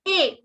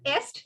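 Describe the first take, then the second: First: The word is a bare vowel, no S or T. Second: The word ends with audible S and T sounds. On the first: The speaker calls it right. "the S and T are silent. So quelle A" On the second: The speaker calls it wrong. "It is not est"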